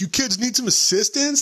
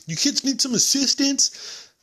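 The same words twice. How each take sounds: First: High, sing-song cop voice; goofy cop offering help; mock cop line. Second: Much higher, slow drawn-out cop voice; squeaky slow-motion cop voice; exaggerated cop impression. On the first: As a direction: ham up the clueless cop. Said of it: "the cop pulls up and he's just like". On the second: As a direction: stretch every word like the cop. Quoting the cop again.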